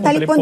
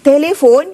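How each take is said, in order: First: It is said with 'ta' and 'pon' sounds. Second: It is said with 'te' and 'fon' sounds. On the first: The speaker calls it wrong. "dah biasa sebut talipon" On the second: The speaker calls it right. "ejanya telefon"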